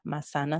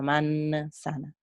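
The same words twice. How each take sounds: First: A middle sound of the word is changed. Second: The word is said with its usual sounds. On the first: The speaker calls it wrong. "no es manzana" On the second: The speaker calls it right. "sino manzana"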